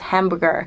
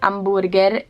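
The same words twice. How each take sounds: First: It is pronounced the English way. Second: It is pronounced the Italian way. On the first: "but in English is hamburger" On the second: "We say hamburger in Italy"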